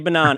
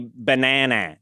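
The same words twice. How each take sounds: First: It is said in an Australian accent. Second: It is said in an American accent. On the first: The speaker calls it right. "Just say" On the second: The speaker calls it wrong. "Don't say"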